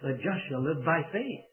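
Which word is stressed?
faith. The word faith carries the main stress. The focus is on faith as the means. "put the emphasis on the faith"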